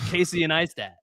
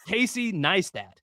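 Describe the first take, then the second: First: An extra syllable comes before the surname's N. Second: The surname starts directly with its N sound. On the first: The speaker calls it wrong. "why do people put a whole ass other syllable before the N? Like Casey and Neistat. They say it like that" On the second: The speaker calls it right. "They don't say Casey Neistat"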